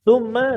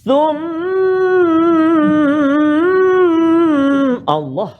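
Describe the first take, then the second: First: The nasal hum on the m is kept short. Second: The nasal hum on the m is drawn out long. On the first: The speaker calls it right. "dua harakat dekat situ" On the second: The speaker calls it wrong. "lama sangat dia nak taranum"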